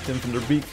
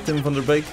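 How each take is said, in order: First: The name is pronounced the English way. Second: The name is pronounced the Dutch way. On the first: "if you pronounce it in English" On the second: "which is his name pronounced in Dutch"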